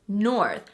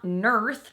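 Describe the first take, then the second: First: The vowel sounds like the 'or' in 'for'. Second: The vowel sounds like the 'ur' in 'nurse'. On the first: The speaker calls it right. "it's north" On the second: The speaker calls it wrong. "It's not nurth"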